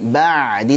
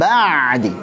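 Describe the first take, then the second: First: The ain sound is pressed only lightly. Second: The ain sound is pressed too hard. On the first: The speaker calls it right. "ba'di segitu saja" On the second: The speaker calls it wrong. "jangan ba'di. Ba'di salah. Enggak enak"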